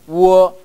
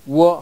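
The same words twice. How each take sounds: First: The final vowel is held a little longer. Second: The final vowel is cut off short. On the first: The speaker calls it right. "우어 약간 길게 보세요" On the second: The speaker calls it wrong. "우어 하고 버리지 마시고"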